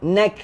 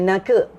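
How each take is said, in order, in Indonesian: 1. Kata itu berakhir tegas pada bunyi k. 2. Kata itu berakhir dengan vokal tambahan setelah k. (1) "huruf kaf tak lantun" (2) "bukannya naka, dia tak sampai naka"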